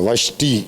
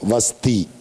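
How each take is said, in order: First: The middle consonant is an 'sh' sound. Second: The middle consonant is a plain 's' sound.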